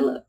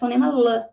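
First: L is said as a bare held sound. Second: L is said as its letter name. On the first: The speaker calls it right. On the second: The speaker calls it wrong.

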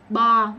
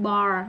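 First: The word ends without any R sound. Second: The word ends with a strong R sound. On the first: This is the British pronunciation. "Anh là bar với lại car, không có chữ R nha mọi người" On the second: This is the American pronunciation. "Anh Mỹ mới đọc chữ R mạnh"

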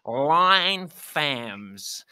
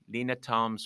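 First: The name is pronounced the English way. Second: The name is pronounced the Danish way. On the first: The speaker calls it wrong. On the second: The speaker calls it right.

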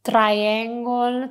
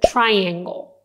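First: It is said with an Italian accent. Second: It is said with an English accent. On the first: The speaker calls it wrong. "you probably said triangle" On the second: The speaker calls it right. "but this is a triangle"

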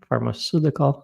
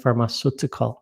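First: The T is a soft, D-like flap. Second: The T is a hard, clear T. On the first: The speaker calls it right. "powinno być czytane jak gdy" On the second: The speaker calls it wrong. "a nie pharmaceutical"

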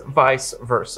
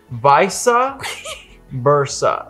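First: The first word sounds like 'vice', one syllable. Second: The first word sounds like 'visa', two syllables. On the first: The speaker calls it right. "It is vice versa" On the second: The speaker calls it wrong. "refuses, and I mean refuses, to say it correctly"

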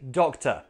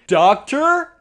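First: The last syllable has a weak schwa with no R. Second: The last syllable has a full vowel with an R. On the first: The speaker calls it right. "I see a doctor" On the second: The speaker calls it wrong. "I see a doctor? No"

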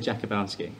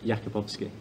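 First: The name is said with simplified English sounds. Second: The name is said with its native Polish sounds. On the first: It is easier for others to say. "I say Jakubowski, just to make it easy" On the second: It is the name's original pronunciation. "but Jakubowski"

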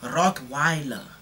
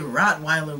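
First: The word is said in a South African accent. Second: The word is said in an American accent. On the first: "we say Rottweiler" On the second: "We don't say Rottweiler"

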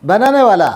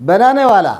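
Both takes have the same delivery.

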